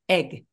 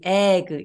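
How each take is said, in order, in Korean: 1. 모음이 짧고 단호하게 발음됩니다. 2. 모음이 활짝 벌어지고 길게 늘어집니다. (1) "조금 짧고 단호하게" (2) "너무 벌어지지 않게 애기, egg 이거보다는"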